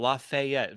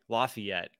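First: The name is said in a fancy, refined way. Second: The name is said in a plain, local way. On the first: This is how the other person says the name. "I love how you say it, though, Lafayette. Very fancy" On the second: This is how people in Indiana say the name. "at least in Indiana, it's just like Lafayette"

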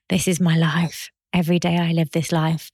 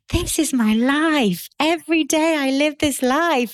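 First: The voice sounds weary and fed up. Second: The voice sounds lively and excited. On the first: The speaker is tired of this life. The speaker calls it wrong. "if you say it like you're fed up" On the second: The speaker loves this life. The speaker calls it right. "if you say it like you're super excited"

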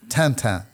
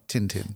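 First: The name has a French pronunciation. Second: The name has an English pronunciation. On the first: This is the original form of the name. The speaker calls it right. "if you read the original, it's Tintin" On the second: This is the translated form of the name. The speaker calls it wrong. "not Tintin"

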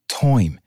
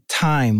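First: The vowel is a cockney-like 'oy' sound. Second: The vowel is a plain 'eye' sound. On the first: "like toime" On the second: "and time"

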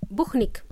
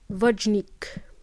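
First: The name is said as Spanish speakers say it. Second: The name is said as English speakers say it. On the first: "my Spanish friends, they pronounce my name as Buchnik" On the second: "when the native speakers try to pronounce my name, they pronounce it as Vojnik"

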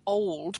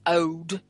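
First: The L sound is clearly pronounced. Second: The L sound is dropped completely.

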